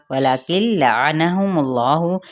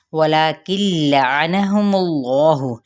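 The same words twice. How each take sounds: First: ولکن لعنہم اللہ slow, the lam of اللہ full and heavy, rising end; slow tajweed demo. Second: ولکن لعنہم اللہ very slow, with a long la and a falling close; slow tajweed demo. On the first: Teacher's second model of ولکن لعنہم اللہ, heavy lam of Allah and a rising end. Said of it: "جلالہ کے لام کو پر پڑھیں گے". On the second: Teacher's first slow model of ولکن لعنہم اللہ, drawn out with a falling end. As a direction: stretch the la of ولکن and let اللہ fall. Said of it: "لا پہ مد اصلی بالالف". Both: Shown as a demonstration.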